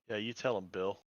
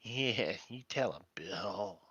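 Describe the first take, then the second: First: It is said in his natural voice. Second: It is said in a put-on character voice.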